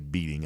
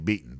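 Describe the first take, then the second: First: The ending is a full 'ing' with g. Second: The ending is 'in' with the g dropped. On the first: "I don't say beating" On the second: "I say beaten because I'm from Georgia"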